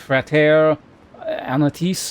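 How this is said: The name is said with a French-style pronunciation. "like a French pronunciation"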